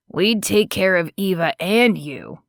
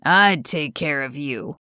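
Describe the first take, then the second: First: Gently pleading offer. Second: Lower, intimate pleading. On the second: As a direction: drop lower and plead personally. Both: Acted. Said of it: "A pleading tone was thick in his voice".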